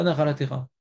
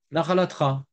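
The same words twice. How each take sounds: First: "Nachalatecha" with a sounded "te"; "Nachalatecha", every syllable distinct; full vowel form. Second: "Nachalatra" with T and R run together; Tunisian-style "Nachalatra", ending in one "tra"; Tunisian dropped vowel. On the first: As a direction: keep the E after the T in "Nachalatecha". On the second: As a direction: swallow the E after the T in "Nachalatra". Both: Shown as a demonstration. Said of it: "pas Nachalatecha".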